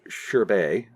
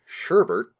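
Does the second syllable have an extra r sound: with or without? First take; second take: without; with. First: The second syllable has no added r sound. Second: The second syllable has an added r sound. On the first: The speaker calls it right. "that word is pronounced Sherbet" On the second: The speaker calls it wrong. "which is the incorrect pronunciation"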